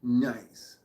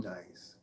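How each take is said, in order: First: Louder, pleased exclamation; pleased nice. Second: A breathy whispered aside to himself; whispered nice. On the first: Vlogger seeing the count hit five, louder and pleased. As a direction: say it out loud, happy with the count. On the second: Vlogger pleased at his thumbs-up count, whispering. Quiet self-satisfied aside. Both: Real, not acted.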